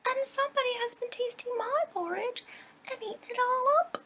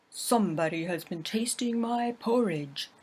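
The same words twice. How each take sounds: First: Put-on much higher, piping baby bear voice; squeaky little bear's high pipe. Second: Louder gruff growl of a big bear; a big bear's gruff growl. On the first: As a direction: pipe it up like a tiny cub. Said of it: "the little bear piped". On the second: Acted. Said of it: "growled in his great gruff voice".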